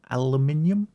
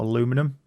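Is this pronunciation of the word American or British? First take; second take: British; American. First: It is said the British way, with five syllables. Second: It is said the American way, with four syllables. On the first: The speaker calls it right. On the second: The speaker calls it wrong.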